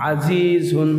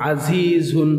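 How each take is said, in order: Both takes have the same delivery.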